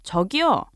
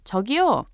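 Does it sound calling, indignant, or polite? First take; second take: indignant; calling. First: It is said in an indignant tone. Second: It is called out to get attention.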